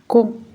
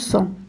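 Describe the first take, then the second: First: The syllable begins with a k sound. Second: The syllable begins with an s sound. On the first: The speaker calls it right. "ça donne Co" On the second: The speaker calls it wrong. "ماشي صو"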